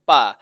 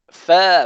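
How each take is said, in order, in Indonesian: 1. Suku kata ini diawali bunyi p. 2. Suku kata ini diawali bunyi f. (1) "bukannya pa" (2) "fa bukannya pa"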